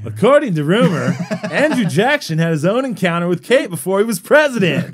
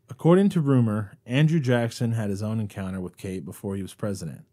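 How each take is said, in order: First: It is read with lively, varied pitch. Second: It is read in a flat, plain voice. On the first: The speaker calls it right. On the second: The speaker calls it wrong.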